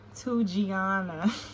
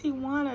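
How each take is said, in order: First: The name is said as 'Tugiana'. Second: The name is said as 'Tijuana'. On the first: The speaker calls it wrong. "She pronounces this Tugiana" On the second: The speaker calls it right. "girl, it's Tijuana, not Tugiana"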